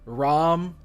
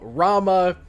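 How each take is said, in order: First: The name ends on the m consonant. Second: The name ends with a final a vowel.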